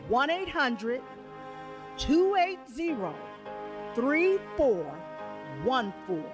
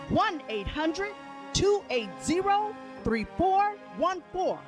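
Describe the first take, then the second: First: The number is said a little slower. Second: The number is said at normal speed.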